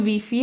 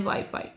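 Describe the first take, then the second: First: ویفی with "ee" in both syllables; WiFi misread as "vee-fee". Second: وای فای with "eye" in both syllables; WiFi as Turks say it. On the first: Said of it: "ویفی هم تلفظ کنی". (تلفظ ویفی با صدای «ای») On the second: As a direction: say وای فای as "vai-fai". (تلفظ وای فای با صدای «آی») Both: Shown as a demonstration.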